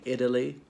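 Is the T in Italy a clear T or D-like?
D-like. The T sounds more like a D. "the T is pronounced like a D there"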